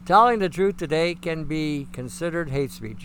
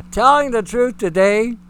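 First: Said in the usual way. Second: Loud, punched opening phrase; emphatic. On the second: Real, not acted. Preacher stressing truth to his audience, forceful. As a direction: hammer home "Telling the truth today" loudly.

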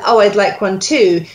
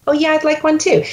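First: Said in the usual way. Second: Lightly voiced Phoebe echo, much higher; parroting Phoebe. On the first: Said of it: "When Phoebe starts with". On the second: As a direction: repeat her line like a parrot, pitched up. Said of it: "you start as the actor".

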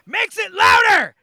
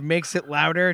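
First: High, loud sudden scream. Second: Said in the usual way. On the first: Retold or imitated. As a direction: scream the line out. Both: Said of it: "just screams".

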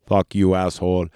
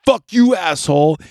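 First: Said in the usual way. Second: Higher and louder mock Terminator snarl; Terminator line, acted. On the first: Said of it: "he decides on". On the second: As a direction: spit out "Fuck you, asshole." as an acted tough guy. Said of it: "And he goes".

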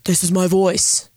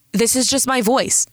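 First: Slower, slightly put-on Marvel quote; slow, deliberate quoted line; mock movie quote. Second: Said in the usual way. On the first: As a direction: lightly act it out like a film line. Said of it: "Sorry, Marvel reference".

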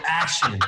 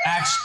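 First: Said in the usual way. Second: "Action" squeaked way up high; silly squeak. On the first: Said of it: "and I go". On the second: Shown as a demonstration. Director teasing nervous actors, squeaky "Action". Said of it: "I go".

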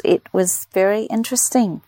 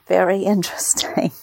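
First: Said in the usual way. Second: Laughing through the word interesting; chuckling mid-word. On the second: Real, not acted. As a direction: let a laugh break into interesting.

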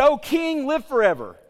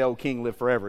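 First: High, raised hail to a monarch; courtiers hailing the king. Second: Said in the usual way. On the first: Acted. Wise men addressing their king, acted high acclaim. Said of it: "So they said". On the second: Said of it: "you know it's getting serious".

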